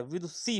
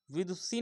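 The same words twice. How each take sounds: First: विदुषी with a long ई at the end; correct pronunciation. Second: विदुषी read as the wrong form; wrong spelling reading. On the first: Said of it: "बड़ी ई की मात्रा लगती है". (सही उच्चारण विदुषी) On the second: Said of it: "विदुषी नहीं होता है". (गलत उच्चारण विदुषी) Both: Shown as a demonstration.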